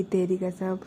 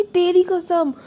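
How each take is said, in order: First: Said in the usual way. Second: तेरी कसम shouted high and loud; loud oath. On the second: Retold or imitated. Sister swears on her sister's head, shouting तेरी कसम. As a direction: swear तेरी कसम loudly, with तेरी hit hardest. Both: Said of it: "सिर पे रख के कसम खाती है".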